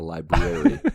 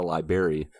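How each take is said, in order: First: Both r sounds are pronounced, 'li-brar-y'. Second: The first r is dropped, ending like 'berry'. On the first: The speaker calls it right. "There's two R's separated. By an A" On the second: The speaker calls it wrong. "It is not like a fruit room"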